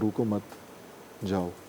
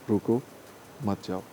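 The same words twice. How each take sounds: First: The pause comes after 'mat', meaning go. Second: The pause comes after 'ruko', meaning stop.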